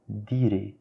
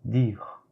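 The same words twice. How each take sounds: First: The R is not pronounced the French way. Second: The R is pronounced the French way. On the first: The speaker calls it wrong. "Ce n'est pas dire, mais c'est faux ça" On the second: The speaker calls it right. "Observez bien la prononciation du R français. Mais c'est plutôt dire"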